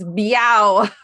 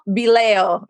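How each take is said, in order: First: The surname rhymes with meow. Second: The surname does not rhyme with meow. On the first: The speaker calls it right. "It's Biao. You know how I remembered? Because you told me your daughter said meow" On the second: The speaker calls it wrong. "I said it wrong"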